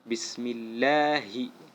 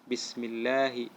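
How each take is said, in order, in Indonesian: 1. Suku kata lah memiliki tekanan yang jelas. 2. Suku kata lah dilewati tanpa tekanan. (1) "tapi ada tekanannya" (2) "Tidak boleh bacanya lewat"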